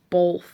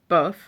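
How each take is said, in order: First: The word has an L sound in it. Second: The word has no L sound in it.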